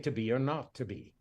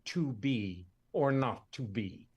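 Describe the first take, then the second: First: The word 'to' is reduced, like 'tuh'. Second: The word 'to' is said fully, like 'two'. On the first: "You say to be or not to be" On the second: "you can't tell me you say you don't say to be or not to be"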